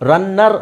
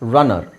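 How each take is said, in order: First: The n sound is held long and doubled. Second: The n sound is short and single. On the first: The speaker calls it wrong. "ರನ್ನರ್ ಅಲ್ಲ" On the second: The speaker calls it right. "ಹೇಳಬೇಕಾದ್ರೆ ಅದನ್ನು ನಾವು ಒತ್ತಬಾರ್ದು"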